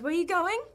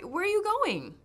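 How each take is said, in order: First: The pitch goes up at the end. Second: The pitch goes down at the end.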